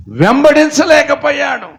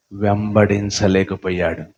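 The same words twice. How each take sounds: First: వెంబడించలేకపోయాడు shouted high and loud; preacher's shout. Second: Said in the usual way. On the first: Real, not acted. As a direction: burst out with వెంబడించలేకపోయాడు, much higher and louder. (వెంబడించలేకపోయాడు అని గట్టిగా అరుపు)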